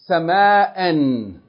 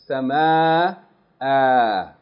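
First: The word ends with an n sound. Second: The word ends with a long a. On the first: The reading continues past the word. "If you keep reading, you read it as tanween, an" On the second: The reading stops on the word. "if you stop on it, you read it as though there's elongation of the fatha"

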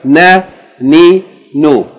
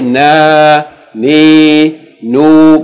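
First: The vowels are said short. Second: The vowels are drawn out long. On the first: The speaker calls it right. "so try to keep it short" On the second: The speaker calls it wrong. "Don't say na, ni, nu, because that would be a long vowel"

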